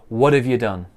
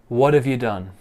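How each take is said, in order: The two takes are said the same way.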